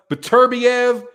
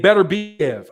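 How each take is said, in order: First: "Beterbiev" as buh-TUR-bee-ev; first pronunciation. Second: "Beterbiev" as BET-er-bee-ev; second pronunciation. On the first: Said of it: "I've heard it pronounced". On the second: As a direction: say "Beterbiev" with a clear BET at the start. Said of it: "I've heard it both ways". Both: Shown as a demonstration.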